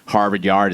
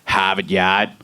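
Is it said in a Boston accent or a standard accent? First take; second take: standard; Boston. First: It is said in a standard accent. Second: It is said in a Boston accent.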